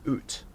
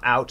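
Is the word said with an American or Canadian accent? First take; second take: Canadian; American. First: The vowel is a raised Canadian 'oo'-like sound. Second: The vowel is a broad American 'ow' sound. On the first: "it's oot, Canadian way" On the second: "It's not out, Americans"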